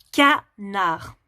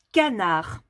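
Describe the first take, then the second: First: "Canard" said slowly, syllable by syllable, ca-nard; slow "Canard" for a child to hear the syllables; split into syllables. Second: Said in the usual way. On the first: Shown as a demonstration. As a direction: sound out "Canard" so each syllable stands apart. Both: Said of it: "si tu entends la syllabe chat".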